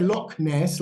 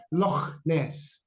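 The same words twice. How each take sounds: First: Said in the usual way. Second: Loch Ness with a throaty Scottish ch in Loch, slowly. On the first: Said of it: "like we would". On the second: Shown as a demonstration. Teacher demos the Scottish ch in Loch Ness. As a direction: scrape the ch of Loch Ness like a Scot. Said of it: "putting on a Scottish accent".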